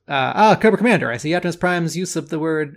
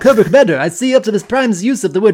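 First: It is read in the speaker's normal voice. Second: It is read in a put-on British-sounding voice.

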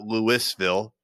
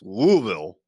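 First: The word is said with three full syllables. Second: The word is slurred into two syllables. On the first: The speaker calls it wrong. "It's not Louisville" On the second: The speaker calls it right. "Two syllables. ... you kind of just slur the words"

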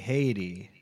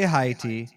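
First: The word is said with a non-Haitian pronunciation. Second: The word is said with a Haitian pronunciation. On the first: "The other non-Haitians say Haiti" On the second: "Haitians say Haiti"

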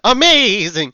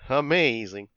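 First: It is said with exaggerated enthusiasm and a trill. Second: It is said flatly, without enthusiasm. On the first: "you trilled your voice there for a second" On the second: "You didn't sound like you were doing amazing"

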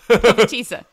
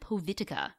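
First: The word is pronounced in a non-literal way. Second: The word is pronounced literally, sound for sound. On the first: The speaker calls it right. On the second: The speaker calls it wrong.

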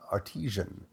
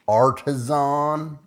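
First: It is said without a Southern accent. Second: It is said with a Southern accent.

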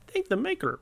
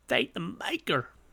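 First: It is said in a put-on character voice. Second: It is said in a plain, ordinary voice. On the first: The speaker calls it right. "He'd be like" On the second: The speaker calls it wrong. "Well, he wouldn't say it like that"

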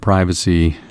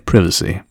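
First: It is said in an American accent. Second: It is said in a British accent.

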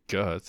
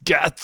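First: The name is said with plain English sounds. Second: The name is said with Japanese-style sounds. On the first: The speaker calls it wrong. "You don't say guts" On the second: The speaker calls it right. "It's guts"

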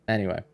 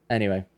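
No difference in how they are said.

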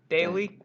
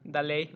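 First: The name is said with an American pronunciation. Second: The name is said with a Mexican pronunciation. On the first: "So that's American" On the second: "that's a Mexican pronunciation"

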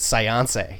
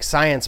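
First: The stress is on the second syllable. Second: The stress is on the first syllable.

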